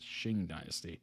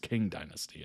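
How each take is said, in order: First: The first word begins with a sh-like sound. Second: The first word begins with a hard K sound. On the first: The speaker calls it right. "Is a Q a she sound? ... I think it's Qing Dynasty" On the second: The speaker calls it wrong. "I don't think it's King Dynasty"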